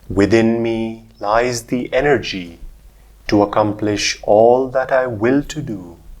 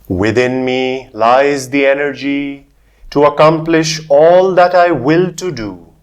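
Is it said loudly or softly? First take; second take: softly; loudly. First: It is said in a softer voice. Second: It is said in a louder voice.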